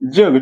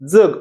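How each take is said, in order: First: It begins with a palatal 'j' sound. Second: It begins with a dental 'dz' sound. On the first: It means the world. "जी बघा वरती लागत्या" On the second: It means to live. "दंत तालव्य दाताच्या मुळापाशी लागते"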